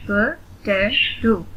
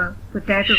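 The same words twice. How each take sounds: First: "पोटैटो" slowly, syllable by syllable; three spaced beats on "पोटैटो"; split into syllables. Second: Said in the usual way. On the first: Shown as a demonstration. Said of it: "split in the syllables". ("पोटैटो" का हर syllable अलग, धीरे) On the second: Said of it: "read the word".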